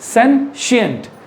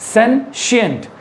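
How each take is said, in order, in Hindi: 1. शब्द के बीच में 'sh' की आवाज़ है। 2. शब्द के बीच में 'sh' की आवाज़ है।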